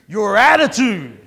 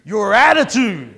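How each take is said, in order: First: The phrase is said with a sassy, attitude-filled tone. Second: The phrase is said with a sassy, attitude-filled tone.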